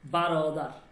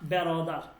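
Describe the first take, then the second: First: The first syllable is said as 'ba'. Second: The first syllable is said as 'be'. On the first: The speaker calls it right. "বারোদার, ঠিক আছে" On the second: The speaker calls it wrong. "Not বেরোদার"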